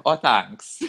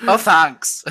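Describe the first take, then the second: First: Lightly Californian reply; a touch of California vowels; California accent. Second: Higher, louder mock California accent; teasing echo of a California accent; mimicked California accent. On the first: Retold or imitated. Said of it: "that was my California coming out". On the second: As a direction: parrot it back in exaggerated Californian. Mimics the other's accented reply.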